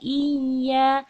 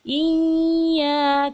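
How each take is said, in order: First: The y sound is held and pressed briefly. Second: The y is held too long and hums. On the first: The speaker calls it right. "ditahan dan ditekan" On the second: The speaker calls it wrong. "terlalu lama sehingga dia menjadi dengung"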